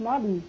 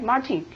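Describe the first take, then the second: First: The t in the middle is softened or dropped. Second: The t in the middle is fully pronounced. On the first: The speaker calls it right. "突然醍醐灌顶" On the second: The speaker calls it wrong. "中国人都说嘛Martin"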